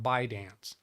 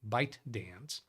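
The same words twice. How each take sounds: First: The T sound is left out. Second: The T sound is clearly pronounced. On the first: This is how it was heard on the news. "I only ever heard it on a news article talking about ByteDance" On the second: This is how the name is spelled. "Never heard them pronounce the T"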